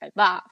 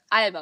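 First: The stress is on the second syllable. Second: The stress is on the first syllable. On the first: The speaker calls it wrong. "und nicht" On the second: The speaker calls it right. "Name wird ja auch auf die 1 betont"

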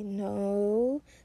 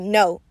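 First: The word is said weakly and hesitantly. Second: The word is said firmly and assertively.

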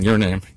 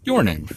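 First: The stress falls on name. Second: The stress falls on your.

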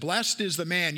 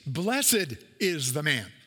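First: Blessed is pronounced in the modern, everyday way. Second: Blessed is pronounced in the older, formal way. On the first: "I read it like this" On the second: "That's the way that we would have said it when you're reading it out of the King James"

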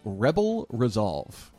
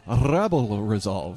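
First: It is said in a plain voice. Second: It imitates Tarkin, with rolled R's.

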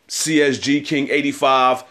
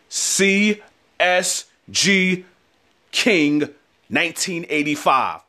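First: It is said at normal, quick pace. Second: It is said slowly and deliberately.

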